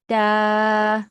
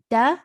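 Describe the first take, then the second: First: The vowel is long, stretched out. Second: The vowel is short, not stretched. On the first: "da standing fatha" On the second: "da fatha"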